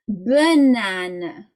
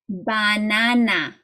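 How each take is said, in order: First: The first and last vowels are reduced to uh. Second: The first and last vowels are full a sounds. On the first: The speaker calls it right. "In English, you say banana. So you have lots of schwas" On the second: The speaker calls it wrong. "if you read it like you would in German"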